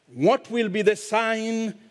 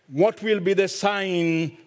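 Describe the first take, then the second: No difference in how they are said.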